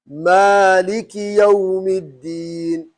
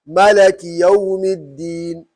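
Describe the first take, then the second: First: The first vowel is long: maaliki. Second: The second vowel is a: malaki. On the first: The speaker calls it right. "That's the right way to pronounce when you are reading what? Hafs" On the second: The speaker calls it wrong. "this is the wrong"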